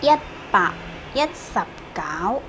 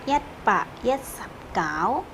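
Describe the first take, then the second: First: "Yatsap kau" drawn out slowly, rising on "kau"; teacher stretching out "Yatsap kau"; slow pronunciation. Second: "Yatsap kau" repeated slowly, a little softer, with a rise on "kau"; teacher repeating "Yatsap kau" softly; repeated pronunciation. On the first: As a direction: model "Yat, Pak. Yatsap kau" syllable by syllable for learners. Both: Shown as a demonstration. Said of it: "Seratus sembilan belas gimana ngomongnya".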